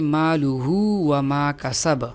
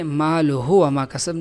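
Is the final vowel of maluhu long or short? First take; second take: long; short. First: The final vowel of maluhu is drawn out. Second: The final vowel of maluhu is short. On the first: The speaker calls it right. "वाव मद्दा की तरह इसको लंबा करके पढ़ेंगे" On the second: The speaker calls it wrong. "नहीं"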